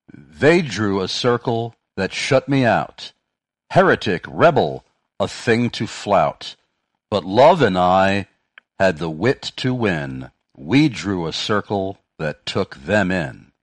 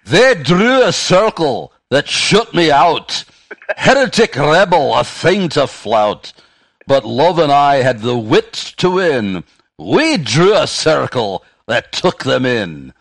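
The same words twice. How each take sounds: First: Slow, emphatic poem reading; measured recital with punched key words; verse recitation. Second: Loud, high, slow hammed-up Scottish recital; booming mock-Scottish delivery, pitched well up; attempted Scottish accent. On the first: Real, not acted. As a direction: recite it deliberately, line by line, each phrase landing. Reads out a quoted verse. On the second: Shown as a demonstration. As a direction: declaim the verse in a bad Scottish accent. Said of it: "if you did that with a Scottish accent".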